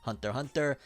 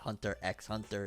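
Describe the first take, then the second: First: The letter X is left silent between the words. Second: The letter X is pronounced between the words. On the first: The speaker calls it right. "where the X is silent" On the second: The speaker calls it wrong. "It's not Hunter x Hunter"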